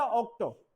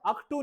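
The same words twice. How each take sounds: First: ऑक्टो said "ok-toe"; ऑक्टो, as in English "October"; corrected English vowels. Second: अक्टू said "ak-too"; अक्टू in the Hindi-style vowels; wrong vowel demo. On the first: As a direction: say ऑक्टो with a rounded "o" ending. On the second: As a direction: say अक्टू with "a" first and "oo" last. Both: Shown as a demonstration. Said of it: "अक्टू नहीं बेटा".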